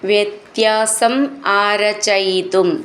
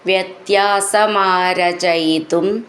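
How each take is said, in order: First: The two words are said separately. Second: The two words are run together as one.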